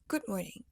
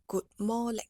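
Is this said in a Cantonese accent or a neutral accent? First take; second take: neutral; Cantonese. First: It is said without a Cantonese accent. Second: It is said with choppy Cantonese-accented syllables.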